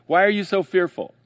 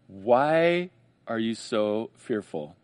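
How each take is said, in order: First: Higher, louder pointed question; challenging question. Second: Slow, low, gentle teacher's question; gentle Jesus question. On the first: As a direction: throw the question at them. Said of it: "So when he says". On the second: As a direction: ask it slowly, like a patient teacher. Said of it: "he says in verse forty". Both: Retold or imitated.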